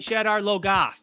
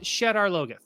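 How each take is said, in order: First: The name is said with a mock Southern drawl. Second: The name is said plainly, with no drawl. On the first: This is how the new version pronounces it. The speaker calls it wrong. "that sounds like the way that someone from Michigan would go down to Kentucky" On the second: This is the pronunciation from the original audiobooks. The speaker calls it right. "it's pronounced Shadar Logoth"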